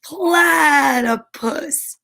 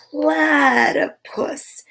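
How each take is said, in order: First: Drawn-out giggly call; giggling. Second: Slow, whispered and giggly; breathy giggling whisper. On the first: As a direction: stretch the name out, giggling hard. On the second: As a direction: whisper the name through a giggle. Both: A narrator's reading. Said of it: "little wombat giggled".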